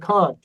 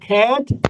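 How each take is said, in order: First: It is said with a British accent. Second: It is said with an American accent. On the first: "British वाला बोलता है" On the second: "American वाला बोलता है"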